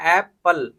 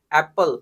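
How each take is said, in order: First: एप्पल split in two, "ae" then "pul"; sounded out. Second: Said in the usual way. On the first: Shown as a demonstration. Teacher showing where A sounds in apple, एप्पल in separate syllables. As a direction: break एप्पल into its sounds, opening on "ae". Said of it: "एप्पल को बोलने में ए का sound क्या हो गया". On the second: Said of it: "एप्पल को बोलने में".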